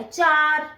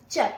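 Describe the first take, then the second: First: चार with a full long aa; चार said long, the way not to; wrong चार. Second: चर said short, the aa shortened; clipped char. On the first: Teacher shows students the wrong चार, a long aa. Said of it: "चार ऐसे नहीं बोलना". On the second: Teacher shows students the right short चर. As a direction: say चर quick and short. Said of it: "pronunciation होना चाहिए चार". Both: Shown as a demonstration.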